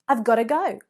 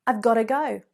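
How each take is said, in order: Both takes have the same delivery.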